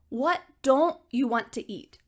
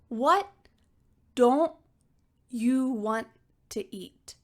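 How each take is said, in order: First: The sentence is spoken quickly. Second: The sentence is spoken slowly. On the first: "Let's say this quickly together" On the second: "let's start slowly"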